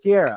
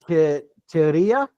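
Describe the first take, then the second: First: The name is said plainly without a put-on accent. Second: The name is said with a put-on Spanish accent. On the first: "it's just Tierra" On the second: "I'm trying to pronounce this shit with an accent"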